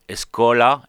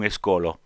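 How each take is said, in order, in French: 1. La voyelle finale sonne comme a. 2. La voyelle finale sonne comme o. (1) "am un A final franc, ou intermediari entre A et E" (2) "et non escolo"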